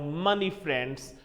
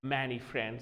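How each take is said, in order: First: The first word is said like 'money'. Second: The first word is said like 'many'. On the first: The speaker calls it wrong. "they pronounce I have money friends, and that's wrong" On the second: The speaker calls it right. "they are your many friends"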